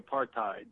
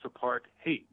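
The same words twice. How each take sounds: First: The last syllable does not sound like 'hate'. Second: The last syllable sounds like 'hate'. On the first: The speaker calls it wrong. "some people say apartheid" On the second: The speaker calls it right. "but it's apartheid, apartheid, T-H-E-I-D, hate"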